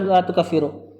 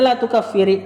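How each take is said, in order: First: The verb ends with a u vowel. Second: The verb ends with an i vowel. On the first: It is a plain negation rather than a prohibition. "Walaupun boleh juga dibaca" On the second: It is a prohibition: do not declare them unbelievers. "kalau dibaca sukun ketemu sukun jadi apa sukun ketemu sukun? Kasroh"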